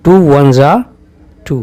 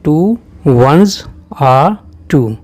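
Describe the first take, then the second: First: 'Ones are' merges into one 'za' sound. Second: 'Ones' and 'are' are said as separate words. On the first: "वंस और आर ये मिल करके जा की सी आवाज़ देने लगती हैं" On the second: "अगर इसे खोलेंगे"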